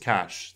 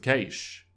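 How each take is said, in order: First: The word sounds like money 'cash'. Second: The word does not sound like money 'cash'. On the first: The speaker calls it wrong. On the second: The speaker calls it right.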